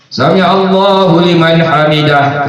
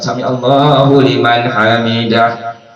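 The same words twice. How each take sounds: First: It is said loudly. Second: It is said quietly.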